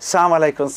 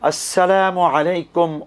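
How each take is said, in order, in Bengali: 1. শুভেচ্ছাটি সংক্ষিপ্ত করে বলা হয়, প্রথম 'as' বাদ দিয়ে। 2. শুভেচ্ছাটি 'as' সহ পুরোপুরি বলা হয়। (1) "এগুলো অশুদ্ধ" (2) "আসলে বলতে হবে আসসালামু আলাইকুম"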